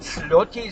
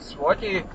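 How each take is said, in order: First: The consonant after the s is an l sound. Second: The consonant after the s is a w sound. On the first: The speaker calls it wrong. "dass sie dieses als L sprechen und Slotti sagen" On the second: The speaker calls it right. "das ist aber falsch, man spricht Swati"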